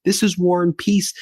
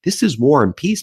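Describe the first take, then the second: First: "This is war and peace" again, held high; emphatic repeat. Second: Pitched higher and pressed hard; emphatic. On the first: Host repeats point to Trump, emphatic high voice. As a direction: hammer the point home. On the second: Host scolds Trump over Iran war, emphatic raised voice. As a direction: drive home "This is war and peace" rising high. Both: Real, not acted.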